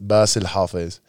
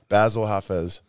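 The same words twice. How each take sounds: First: The name is said with an Arabic pronunciation. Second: The name is said with an English-style pronunciation.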